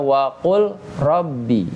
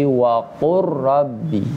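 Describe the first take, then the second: First: The L is pronounced clearly before the R. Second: The L disappears and merges into the R. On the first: The speaker calls it wrong. "Cara membacanya tidak dengan hal demikian saat kita tulis ya" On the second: The speaker calls it right. "huruf lamnya ya hilang ya"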